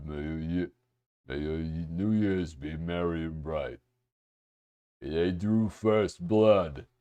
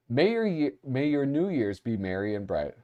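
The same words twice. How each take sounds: First: Low, soft character voice; put-on movie-character voice. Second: Said in the usual way. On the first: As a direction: reread it low and hushed, in character. Rereads card in character voice.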